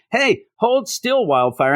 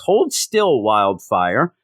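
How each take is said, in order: First: Drawn-out, higher mock line; slow mocking read. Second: Said in the usual way. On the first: Reviewer mocking a comic line, slow and raised. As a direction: stretch it out to mock the dialogue. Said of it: "and then".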